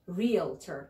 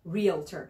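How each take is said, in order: First: Realtor with American r sounds, REEL-ter; American pronunciation. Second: Realtor repeated with a strong American r at the end; Realtor, REEL-tor, r-colored, as Americans say it; American pronunciation. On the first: Teacher modeling Realtor in American pronunciation. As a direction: say Realtor the American way, r-colored ending. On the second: Teacher repeating Realtor in American pronunciation. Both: Shown as a demonstration. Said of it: "This is American".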